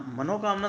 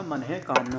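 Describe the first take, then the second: First: मनोकामना joined with an o; raised मनोकामना in one word; incorrect form. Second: मन है कामना with an h after "mana"; visarga form. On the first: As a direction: say मनोकामना as "mano-kaamna". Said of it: "मनोकामना नहीं होता". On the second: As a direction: say मन है कामना as "manah-kaamna". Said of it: "विसर्ग आ जाएगा". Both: Shown as a demonstration.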